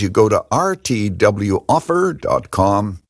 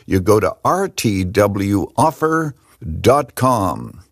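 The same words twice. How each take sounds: First: It is said quickly. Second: It is said slowly.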